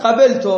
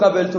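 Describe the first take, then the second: First: Raised, louder call from another room; called out from the bathroom. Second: Said in the usual way. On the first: Retold or imitated. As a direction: shout it from behind a closed door. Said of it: "او تو حموم داد زد". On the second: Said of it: "او گفت".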